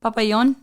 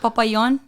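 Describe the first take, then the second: First: The J is said like a Y. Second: The J is said like a Y.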